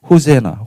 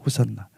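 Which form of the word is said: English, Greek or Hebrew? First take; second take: English; Greek. First: It is said as ho-se-na, the English form. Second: It is said as ho-san-na, the Greek form. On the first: "영어로 또 번역하면은 호세나" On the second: "이 헬라어거든요"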